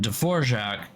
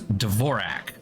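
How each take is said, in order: First: The name keeps its original Czech pronunciation. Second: The name is pronounced in an Americanized way. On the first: It names the composer. "the composer is Antonin Dvorak" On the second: It names the keyboard layout. "he Americanized his name"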